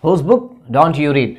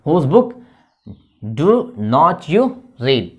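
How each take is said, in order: First: "don't" run together as one syllable; slow model question with "don't" contracted. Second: "do not" as two separate words, slowly; uncontracted DO NOT. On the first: Teacher shows students the alternative spoken form, contracted "don't", slowly. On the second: Teacher builds the negative question for students, uncontracted "do not", slowly. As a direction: say "do not" in full, word by word. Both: Shown as a demonstration. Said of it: "ऐसे भी बोलते हैं".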